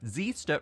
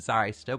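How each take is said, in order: First: The first vowel sounds like 'ee'. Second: The first vowel sounds like 'eye'. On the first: This is the official pronunciation. The speaker calls it right. "We have Zeester" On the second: This is what the spelling suggests. The speaker calls it wrong. "rather than Zyster. That's what you'd typically assume"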